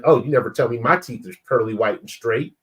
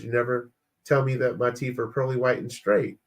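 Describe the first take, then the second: First: Mildly mocking, mock-hurt gripe; tone-deaf complaint. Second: Understated, toned-down defensive quote; innocent restatement. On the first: Husband to wife who praised another man's smile, mildly pointed. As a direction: imitate a lightly pointed jealous comeback. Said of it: "That's not how you said it in this tone". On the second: Retold or imitated. Husband defending his words to wife, mildly matter-of-fact. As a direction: repeat it as if it were harmless. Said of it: "all I said was".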